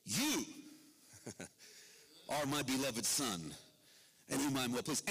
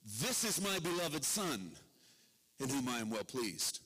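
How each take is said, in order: First: God speaks privately to the drenched Jesus, tender and lower; God's tender words to the son. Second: God's public proclamation. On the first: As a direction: say it close and loving, just to him. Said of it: "To the water-drenched Jesus". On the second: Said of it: "To the crowd assembled". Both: Acted.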